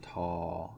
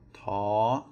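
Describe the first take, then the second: First: The pitch stays low across the syllable. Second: The pitch stays high across the syllable. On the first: "it becomes a low tone" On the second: "a high tone"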